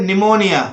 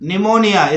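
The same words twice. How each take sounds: Both takes have the same delivery.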